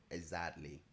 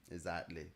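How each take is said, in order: Both takes have the same delivery.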